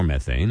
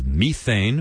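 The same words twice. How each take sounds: First: "methane" as METH-ane, short e; American METHANE. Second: "methane" as MEE-thane, long ee; slow British "methane" with a long first vowel. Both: Shown as a demonstration. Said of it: "as you say in the States".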